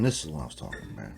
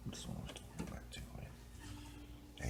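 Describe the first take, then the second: First: Said in the usual way. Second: Whisper. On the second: Pretend.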